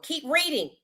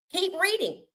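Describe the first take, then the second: First: Said in the usual way. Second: "Keep reading" pitched higher, pressing the point; urging viewers to read past the headlines, pitched higher; higher insistent repeat. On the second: Real, not acted.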